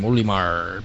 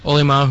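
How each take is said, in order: First: The name is said in a growly pirate-like voice. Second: The name is said in a plain, ordinary voice.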